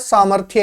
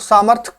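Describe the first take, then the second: First: The word ends in a 'thya' sound. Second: The word ends in a plain 'th' sound. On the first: The speaker calls it right. "इसका शुद्ध रूप होता है" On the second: The speaker calls it wrong. "सामर्थ कोई शब्द नहीं होता"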